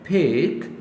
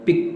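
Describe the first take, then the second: First: The p is said with a strong puff of air. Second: The p is said without a puff of air. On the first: The speaker calls it right. "सो फी पर।" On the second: The speaker calls it wrong. "जब आप इसको पे पढ़ते हैं तो वो थोड़ा awkward लगता है।"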